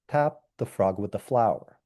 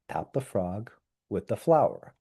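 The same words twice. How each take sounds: First: There is no break after "frog". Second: There is a break right after "frog". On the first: The frog that has the flower should be tapped. "as opposed to something like" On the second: The flower should be used to tap the frog. "I've used an intonational boundary after frog"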